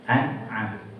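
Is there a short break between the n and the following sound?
Yes. There is a small break after the n. The speaker calls it right. "an'am itu ada jedanya"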